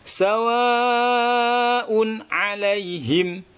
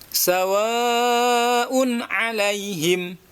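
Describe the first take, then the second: No difference in how they are said.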